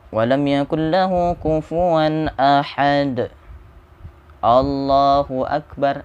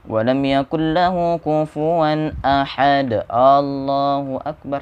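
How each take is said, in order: First: There is a brief pause before the last phrase. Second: It runs straight on with no pause. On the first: The speaker calls it right. "Ada saktah di situ. Ada jeda" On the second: The speaker calls it wrong. "Jangan seperti itu"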